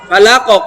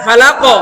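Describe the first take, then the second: The two takes are said the same way.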